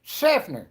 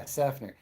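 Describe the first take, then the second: First: Loud, high hammed-up "Seffner!"; exclaimed town name. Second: Said in the usual way. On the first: Exaggerates the town's name.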